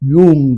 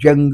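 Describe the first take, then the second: First: The name begins with a 'y' sound. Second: The name begins with a 'j' sound. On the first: The speaker calls it right. "ಕರೆಕ್ಟಾದ ಉಚ್ಚಾರಣೆ ... ಯೂಂಗ್ ಅಂತ ಕರಿಬೇಕು" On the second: The speaker calls it wrong. "ಎಷ್ಟೋ ಜನ ಅವನ ಹೆಸರು ಹೇಳ್ಬೇಕಾದ್ರೆ ಜಂಗ್ ಅಂತಲೇ ಹೇಳ್ತಾರೆ"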